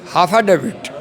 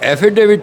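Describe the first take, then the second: First: The word begins with a 'ha' sound. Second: The word begins with an 'e' sound. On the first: Someone else mispronounces the word this way. The speaker calls it wrong. "हाफा डेविट कहते हैं। ... हाफा डेविट नहीं होता" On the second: This is the proper pronunciation of the word. The speaker calls it right. "एफिडेविट होता है।"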